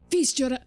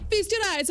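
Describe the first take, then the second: First: It is said in the speaker's normal accent. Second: It is said in an Italian accent.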